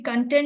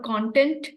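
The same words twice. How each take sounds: First: The stress is on the second syllable. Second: The stress is on the first syllable. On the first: It means satisfaction. The speaker calls it right. "It should be content" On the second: It means material or substance. The speaker calls it wrong. "not content"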